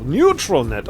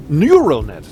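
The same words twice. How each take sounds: First: "Neutral" said with a clear t, noo-trul; "Neutral net" with the t sounded on purpose; misreading kept. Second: "Neural" said as noor-ul, with no t; "Neural net" with the plain r sound and no t before it; correct word. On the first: Joking about the misread game line: "Neutral" with a t. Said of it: "auch nicht schlecht". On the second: Correcting his misreading of the game text: "Neural" said without t. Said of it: "nicht neutral". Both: Shown as a demonstration.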